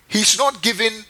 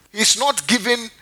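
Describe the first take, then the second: No difference in how they are said.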